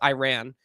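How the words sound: It is said with an American pronunciation. "if you try and say it in American, because it is American, it's Iran"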